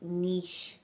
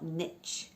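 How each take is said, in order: First: It is said with a British pronunciation. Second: It is said with an American pronunciation.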